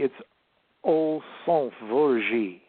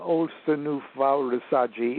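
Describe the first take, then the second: First: The words are clipped with fewer syllables. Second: The words are drawn out with extra vowels. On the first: It follows the original written source. "keep pretty close to the words as they appear" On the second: It follows a later magical tradition. "I still do it the Golden Dawn way ... it sounds Italian"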